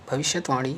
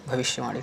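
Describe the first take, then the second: First: भविष्यवाणी with extra t, bhavishyat-vani; wrong form. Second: भविष्यवाणी as bhavishya-vani, no t; corrected form. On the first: Teacher shows the error, भविष्यवाणी with extra t. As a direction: insert a t before vani in भविष्यवाणी. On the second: Teacher corrects students, भविष्यवाणी without a t. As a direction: glide from shya to vani in भविष्यवाणी. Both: Shown as a demonstration. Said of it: "नहीं".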